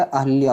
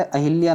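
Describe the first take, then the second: First: Second "अहिल्या" as ah-lya, no i; correct "अहिल्या". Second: First "अहिल्या" with an i after h; wrong "अहिल्या". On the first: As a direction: run h into l in अहिल्या. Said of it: "होता है". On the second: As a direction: say अहिल्या as a-hi-lya. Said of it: "न होकर". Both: Shown as a demonstration.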